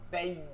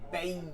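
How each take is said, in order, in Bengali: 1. অক্ষরটি চাপ দিয়ে শক্ত করে বলা হয়। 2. অক্ষরটি চাপ দিয়ে শক্ত করে বলা হয়।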